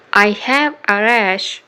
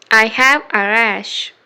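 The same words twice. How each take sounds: The two takes are said the same way.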